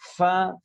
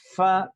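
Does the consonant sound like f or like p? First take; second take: f; f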